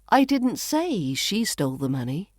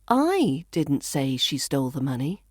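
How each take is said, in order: First: The stress falls on the word say. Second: The stress falls on the word I. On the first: It was implied rather than said. "Maybe I implied it rather than saying it" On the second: Someone else said it. "So I could be saying somebody else did"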